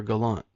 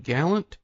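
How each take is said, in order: First: Gallant as guh-LAHNT, stressed on the end; second-syllable stress. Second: Gallant as GAL-unt, stressed on the front; first-syllable stress. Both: Shown as a demonstration. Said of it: "if I've been saying it wrong".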